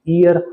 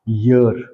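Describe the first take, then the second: First: It starts with a vowel, Indian English style. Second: It starts with a clear y sound.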